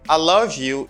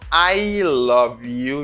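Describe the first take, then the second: First: The word 'I' is reduced to a short 'ah'. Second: The word 'I' is said fully as 'eye'. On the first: The speaker calls it right. "You pronounce it as ah" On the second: The speaker calls it wrong.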